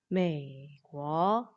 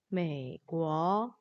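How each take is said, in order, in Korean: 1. 첫 음절은 낮게 유지되면서 다음 음절로 이어집니다. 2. 첫 음절은 낮게 유지되면서 다음 음절로 이어집니다.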